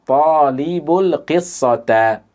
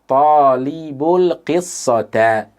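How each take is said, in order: No difference in how they are said.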